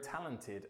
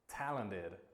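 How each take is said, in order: First: The T in the middle is a crisp T. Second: The T in the middle sounds like a D. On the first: "British English, like my accent" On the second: "as an American might say ... They turn that T into a D sound"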